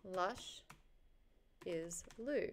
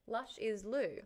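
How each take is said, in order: First: "Lush" ... "is Lou", split by a long pause; sounding it out. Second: Said in the usual way. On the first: Real, not acted. Streamer typing a name into search, "Lush is Lou" slowly sounded out. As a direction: say "Lush", wait, then softly "is Lou".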